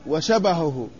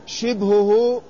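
First: وشبهه as washabahhu, fatha on shin; وشبهه with fatha on shin and baa; vowel demo. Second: شبهه as shibhuhu, kasra on shin; شبهه with kasra on shin, baa unvowelled; vowel demo. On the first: Teacher showing students: وشبهه as washabahhu. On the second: Teacher showing students: شبهه as shibhuhu. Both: Shown as a demonstration. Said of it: "هكذا".

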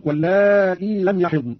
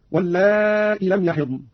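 First: Said in the usual way. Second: واللائي cut short at "-lā'i", no long ī; dropped ya. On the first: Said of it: "قرأ قانون بحذف الياء". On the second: Shown as a demonstration. Teacher demonstrating Qalun, واللائي without its final ya. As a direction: end واللائي on a hamza with short i. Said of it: "بدون ياء هكذا".

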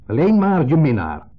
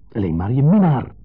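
First: Loud, high, slow, minnaar thrown out; blurted out. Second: Louder, with minnaar pressed hard; stress on minnaar. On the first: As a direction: hurl the words out. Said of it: "Ik gooi het eruit". (eruit gegooid, luid en langzaam) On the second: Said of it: "Met de nadruk op minnaar". (nadruk op minnaar) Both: Retold or imitated.

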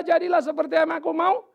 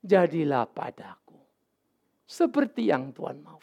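First: Higher, insistent, rising on mau; the wrong servant's prayer, pushy and higher; self-willed demand. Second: Slow, lower, whispered start; Mary accepting God's will, slow and hushed; Mary's surrender. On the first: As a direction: demand your own way. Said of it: "waktu dia berkata". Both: Retold or imitated.

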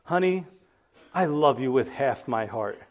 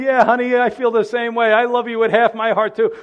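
First: Husband's words. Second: Higher, louder, laughing mock wife; a wife answering her husband, laughing and louder; mock wife's reply. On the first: Pretend. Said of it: "Imagine saying to your spouse". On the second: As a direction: play the wife tossing it back with a laugh. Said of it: "imagine her saying".

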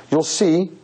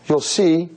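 The two takes are said the same way.

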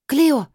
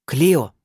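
First: Sharp high warning shout. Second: Loud booming call of her name; rumbling roar. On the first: Acted. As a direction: call her name out in alarm. Linnea shouts warning in fight. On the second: A narrator's reading. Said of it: "пророкотала Азазель".

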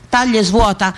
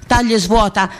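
The two takes are said the same way.

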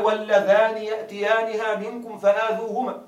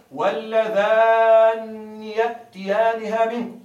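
First: واللذان with a single, unstressed kasra nun, no doubling; light nun. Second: واللذان with the nun held long and doubled, kasra after it, slowly. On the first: Teacher reads the verse with the plain short nun for his students. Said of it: "واللذان بكسرة بدون تشديد". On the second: Teacher demonstrates the doubled-nun reading, slow and deliberate. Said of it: "بتشديد النون مكسورة". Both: Shown as a demonstration.

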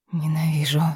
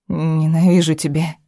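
First: Unvoiced, forced-out whisper. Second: Said in the usual way. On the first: A narrator's reading. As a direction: breathe it out with effort. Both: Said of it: "выдохнула через силу".

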